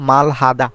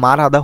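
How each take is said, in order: First: The consonant after the first vowel sounds like L. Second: The consonant after the first vowel sounds like R. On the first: "আমরা যদি এটাকে ভেঙে পড়ি তাহলে বলবো মালহাদা" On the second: "সঠিক উচ্চারণ পড়তে গেলে মারহাদা হয়ে থাকে"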